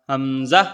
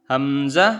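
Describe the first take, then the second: Both takes have the same delivery.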